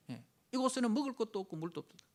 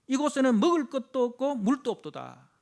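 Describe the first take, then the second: First: Said in the usual way. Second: Loud, high declaimed grievance; loud scripture complaint. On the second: Retold or imitated. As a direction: cry out the lack of food and water. Quoting complaint with force.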